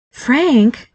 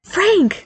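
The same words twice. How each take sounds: First: Reproachful, clipped name, higher; a wife's pointed reminder to her husband; warning tone. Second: High, eager shout of a name; excited call. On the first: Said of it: "like this wasn't part of the deal". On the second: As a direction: call out the name with sudden joy. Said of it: "Daniel declared excitedly". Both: A narrator's reading.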